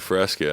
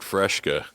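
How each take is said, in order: First: The word is said with a plain 's' sound. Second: The word is said with an 'sh' sound. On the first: The speaker calls it right. "there's no fucking H in that shit" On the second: The speaker calls it wrong. "I said Fresca, and I'd been saying that my whole life"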